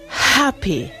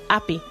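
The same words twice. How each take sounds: First: The opening h is a clear breathy puff. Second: The opening h sound is dropped entirely. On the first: "¿qué diría el RP? ... es como echar vago en un cristal" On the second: "el Cockney accent le quitaría la H a happy"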